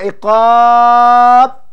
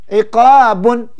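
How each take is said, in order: First: The word stops on its final consonant. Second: The word ends with an added -un syllable. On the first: The reading stops at this word. "Berhenti baru iqab" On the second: The reading continues into the next word. "dua harakat"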